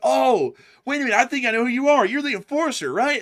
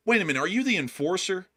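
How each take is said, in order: First: High, loud, fast eager gushing; excited fan. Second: Disappointed shocked fan. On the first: Thrilled fan recognizing the host, high fast excited gush. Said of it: "if they're excited to see you". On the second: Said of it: "there's a specific inflection to their tone". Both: Retold or imitated.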